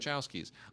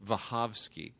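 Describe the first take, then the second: First: The name is said with English sounds. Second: The name is said with Polish sounds. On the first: This is the familiar form listeners will understand. The speaker calls it wrong. "we say Wachowskis" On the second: This is the original form in the source language. The speaker calls it right. "someone who speaks Polish, who said it's pronounced Wachowski"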